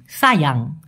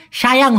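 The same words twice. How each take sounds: First: সায়াং said as sayang, with a clear s; সায়াং with a plain s sound; correct pronunciation. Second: সায়াং said as shayang, with a sh sound; সায়াং with a sh, the wrong way; wrong pronunciation. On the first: Teacher modelling the correct স sound in সায়াং. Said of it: "স এর মতো উচ্চারণ করে". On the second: Teacher demonstrating the wrong শ sound in সায়াং. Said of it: "সায়াং হবে না". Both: Shown as a demonstration.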